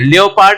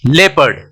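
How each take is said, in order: First: An extra o vowel follows the first vowel. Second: It is said with no extra o vowel. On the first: The speaker calls it wrong. "लियोपार्ड नहीं बोलते हैं" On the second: The speaker calls it right. "ओ का sound यहाँ पे नहीं आ रहा"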